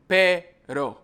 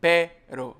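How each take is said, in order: First: Pero said with one light tap of the R; single tap R. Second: Pero with a long rolled trilled R; rolled double R. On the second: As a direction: roll the R hard in pero, like perro. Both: Shown as a demonstration. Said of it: "So you can see the difference".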